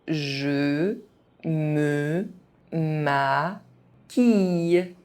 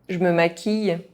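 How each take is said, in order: First: It is said very slowly, syllable by syllable. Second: It is said fast, with some sounds dropped. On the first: Each syllable can be followed. "very slowly" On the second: This is how native speakers say it. "fast, as a native speaker would do"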